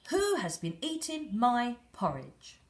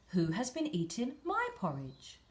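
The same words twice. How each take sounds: First: It is said in a very loud voice. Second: It is said in a medium, moderate voice.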